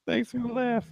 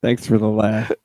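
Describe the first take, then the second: First: High, soft little voice; small high mock voice; high put-on voice. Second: Said in the usual way. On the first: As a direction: repeat it softly, pitched way up. Thanks repeated in put-on voice.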